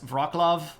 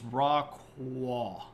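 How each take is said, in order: First: The middle consonant is a plain L sound. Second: The middle consonant is a breathy W sound. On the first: The speaker calls it wrong. "pronouncing this kind of anglicized as Wroclaw" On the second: The speaker calls it right. "So this is Rockwall, and it's not an L"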